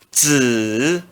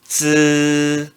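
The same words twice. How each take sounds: First: The pitch dips low then rises. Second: The pitch stays high and level. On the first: "No terceiro tom" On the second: "I no primeiro tom se pronuncia z"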